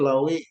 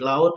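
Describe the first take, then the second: First: The word ends with an 'i' sound. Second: The word ends with a 't' sound. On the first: This is the Minang way of saying it. "jadi ui" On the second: This is the standard Indonesian form. "kalau ut"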